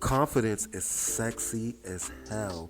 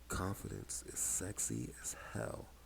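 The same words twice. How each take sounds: First: It is said in an ordinary speaking voice. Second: It is said in a smooth late-night radio voice.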